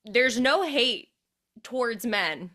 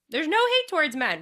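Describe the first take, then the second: First: Said in the usual way. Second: "hate" punched much higher and louder; emphatic repeat. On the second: Shown as a demonstration. Host insists on the point, stress on "hate". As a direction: hammer home "hate" in the repeat. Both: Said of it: "wanna make it abundantly clear".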